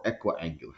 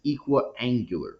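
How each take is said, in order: First: "equiangular" starting with a short EH, as in "echo"; offhand alternative "equiangular" with an EH opening; short-E pronunciation. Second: "equiangular" starting with a long EE, as in "equal"; long-E pronunciation. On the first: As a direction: say "equiangular" as EK-wee-angular, softer. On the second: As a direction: say "equiangular" as EE-kwee-angular. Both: Shown as a demonstration. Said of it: "however you wish to pronounce it".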